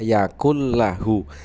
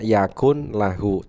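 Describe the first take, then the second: First: The n merges into the following l sound. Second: The n is clearly pronounced before the l. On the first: This is how it is recited. "tetapi dibacanya" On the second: This is how it is written.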